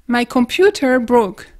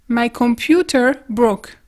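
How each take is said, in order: The two takes are said the same way.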